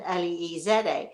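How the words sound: The letters are spelled the British way.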